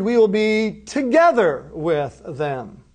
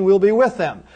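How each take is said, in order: First: "together" set apart and punched; stress on TOGETHER. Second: Said in the usual way. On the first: Retold or imitated. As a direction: lean hard on "together", then space out "with them". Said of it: "you're stressing something". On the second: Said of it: "perfectly makes sense just saying".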